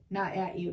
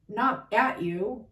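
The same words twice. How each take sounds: First: "not" stressed, whole phrase dropped softer and lower. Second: "at" lifted and stretched, ending on a rise; stress on at. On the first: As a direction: hit "not", then let the rest fall quietly away. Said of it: "and I'm mad with you, not at you". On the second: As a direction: lean on "at" and let it climb slowly. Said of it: "I'm mad for you, not at you". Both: Shown as a demonstration.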